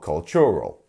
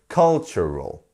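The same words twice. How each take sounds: First: The stress is on a later syllable. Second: The stress is on the first syllable. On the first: The speaker calls it wrong. "not cultural" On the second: The speaker calls it right. "our stressed one's on the first"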